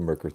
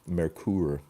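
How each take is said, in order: First: The name is said in an Americanized way. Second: The name is said in its original way. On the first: The speaker calls it wrong. "we Americans are uh, are kind of uh, like that" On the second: The speaker calls it right. "Merkur actually is how you're supposed to correctly pronounce the thing"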